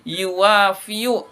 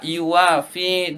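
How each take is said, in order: First: The word ends with a full 'yu' syllable. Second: The word ends with a plain 'i' sound. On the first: This is the underlying original form. The speaker calls it wrong. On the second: This is the form actually used in speech. The speaker calls it right.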